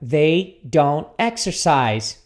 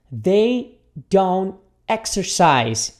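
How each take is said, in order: First: Slow, a little more joined; measured pace with careful words; repeat-after-me model. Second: Very slow, word by word; repeat-after-me model. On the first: Teacher repeats the negative for students, slowly. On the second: Teacher models the negative for students, very slowly. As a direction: break it into long separate words. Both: Shown as a demonstration. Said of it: "repita comigo aqui".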